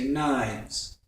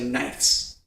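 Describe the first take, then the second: First: It is said with a v sound before s. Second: It is said with an f sound before s. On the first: The speaker calls it right. "you say" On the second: The speaker calls it wrong. "You don't say"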